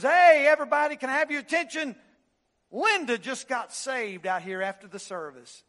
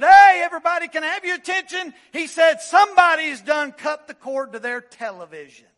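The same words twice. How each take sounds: First: Loud, high call for attention; pastor's announcement. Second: Much louder, higher excited shout. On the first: Pastor calling out to diners in the hall, loud announcement. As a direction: call over the fellowship hall crowd. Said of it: "he says". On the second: Preacher bursting in about the cut cord, excited shout. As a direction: whoop it out to the whole room. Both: Retold or imitated.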